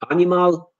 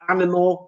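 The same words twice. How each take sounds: First: The unstressed vowels are full vowels. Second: The unstressed vowels are weak schwas. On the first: The speaker calls it wrong. "they say animal" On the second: The speaker calls it right. "Instead of animal"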